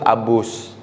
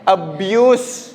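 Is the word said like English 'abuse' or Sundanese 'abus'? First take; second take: Sundanese; English. First: It sounds like the Sundanese word abus. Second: It sounds like the English word abuse. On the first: The speaker calls it wrong. "si mahasiswanya malah nyebut abus. Kan beda arti kalau dalam bahasa Sunda" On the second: The speaker calls it right. "Abuse, abuse"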